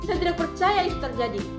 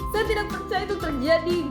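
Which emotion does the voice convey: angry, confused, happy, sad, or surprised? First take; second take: angry; happy. First: High, firm pitch that sounds angry. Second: Light, up-and-down pitch that sounds happy. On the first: "intonasi marah atau nada tinggi atau tegas" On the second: "senang. Nada ringan atau naik turun"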